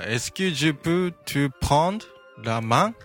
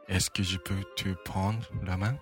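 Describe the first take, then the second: First: It is said plainly, without added emotional nuance. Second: It is said with heartfelt, suggestive emotional nuance.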